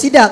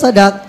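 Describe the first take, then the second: First: The first vowel is a high 'i' sound. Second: The first vowel is an open 'a' sound. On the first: The speaker calls it wrong. "dengan kasrahnya sad" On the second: The speaker calls it right. "dibaca dengan fathah sad itu terlebih fasih"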